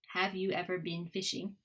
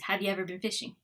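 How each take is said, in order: First: The words are said with full, careful vowels. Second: The words are said with weak, reduced vowels.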